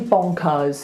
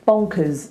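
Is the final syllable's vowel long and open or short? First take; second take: long; short. First: The final syllable has a long, open vowel. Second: The final syllable has a short, reduced vowel. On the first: The speaker calls it wrong. "We don't say bonkers, which is slightly what he's doing" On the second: The speaker calls it right. "make it U Z, us ... It's short, it's little"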